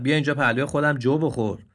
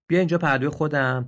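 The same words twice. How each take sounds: First: Louder, sneering "بیا"; mocking invitation. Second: Kind invitation. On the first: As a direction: invite him with a jeer. Donkey mocks the deer. (دعوت با ریشخند) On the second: Acted. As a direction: invite warmly, like calling a child. Noble donkey invites the deer. (دعوت مهربان «بیا»)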